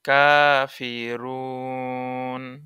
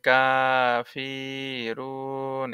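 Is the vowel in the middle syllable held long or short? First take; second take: short; long. First: Only the first vowel is lengthened; the middle is short. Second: The middle vowel is stretched out long as well. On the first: The speaker calls it right. "কায় কায় এক আলিফ টান আছে, ... ফি আর টান নাই।" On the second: The speaker calls it wrong. "সব জায়গায় টানার অভ্যাস হয়ে যেতে পারে ... অনেকে এভাবে পড়তে পারে"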